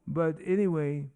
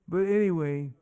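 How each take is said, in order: The two takes are said the same way.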